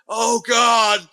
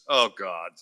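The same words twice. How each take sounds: First: It sounds like a dramatic, alarmed exclamation. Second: It sounds flat, resigned and in disbelief.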